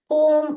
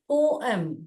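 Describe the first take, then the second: First: The word is squeezed into one syllable. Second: The word is split into two syllables. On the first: The speaker calls it wrong. "पोम नहीं बोलना चाहिए" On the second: The speaker calls it right. "यहां पर divide हो रहा है syllable, पो और एम"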